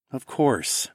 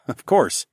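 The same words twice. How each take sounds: First: Gentle. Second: Hurried. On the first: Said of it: "I said gently". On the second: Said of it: "I said hurriedly". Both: A narrator's reading.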